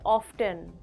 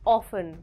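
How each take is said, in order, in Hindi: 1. t की आवाज़ बीच में बोली जाती है। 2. t की आवाज़ पूरी तरह छोड़ दी जाती है। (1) "not often" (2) "T is silent"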